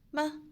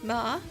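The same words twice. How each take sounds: First: The syllable is short, light and unstressed. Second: The pitch rises from middle to high. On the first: It is a question word. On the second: It means numb.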